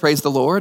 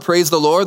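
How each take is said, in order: First: The phrase is said softly and gently. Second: The phrase is said a little louder. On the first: "he gently said" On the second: "He said a little louder"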